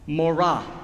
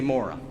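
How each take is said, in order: First: It is said with a Hebrew pronunciation. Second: It is said with an American pronunciation. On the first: "if I pronounce it correctly" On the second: "But I'm from Michigan, we can say Mora"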